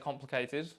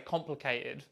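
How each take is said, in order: First: The T sound is clearly pronounced. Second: The T is replaced by a glottal stop.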